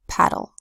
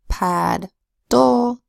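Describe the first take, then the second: First: The syllables are blended with one D sound. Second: The syllables are said apart with two D sounds.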